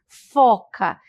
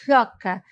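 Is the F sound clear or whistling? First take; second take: clear; whistling. First: The F sound is made cleanly. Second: The F sound comes out with a whistle. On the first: "O som do F, eu vou falar foca" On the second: "E isso aqui assovia"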